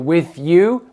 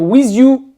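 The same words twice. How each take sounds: First: The end of 'with' has a th sound. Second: The end of 'with' has a z sound. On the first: The speaker calls it right. "au lieu de dire with you" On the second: The speaker calls it wrong. "le T H qui se prononce the, il va le remplacer par z"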